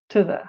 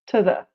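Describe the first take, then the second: First: The word 'to' has a reduced schwa vowel. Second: The word 'to' has a reduced schwa vowel.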